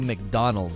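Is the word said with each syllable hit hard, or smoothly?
smoothly. It is said smoothly in a plain English way. "they don't say McDonald's"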